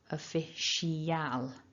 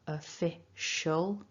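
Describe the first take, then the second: First: The ending is a full el sound. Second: The ending is a tiny schwa with dark l. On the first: The speaker calls it wrong. "with an el" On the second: The speaker calls it right. "we had the weak schwa, ul ending"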